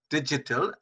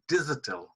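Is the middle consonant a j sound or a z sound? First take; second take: j; z. First: The middle consonant is a j sound. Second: The middle consonant is a buzzing z sound. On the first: The speaker calls it right. "J sound as in digital" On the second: The speaker calls it wrong. "which is not right"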